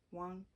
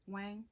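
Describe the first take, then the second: First: "Wang" pronounced like "Wong"; softer "Wang", rhyming with "song"; heard pronunciation. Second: "Wang" with a short a, rhyming with "hang"; alternative pronunciation. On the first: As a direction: say "Wang" with an open "ah" or "aw" vowel. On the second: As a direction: question "Wang" with the vowel of "bang". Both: Shown as a demonstration. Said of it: "pronounced as Wang".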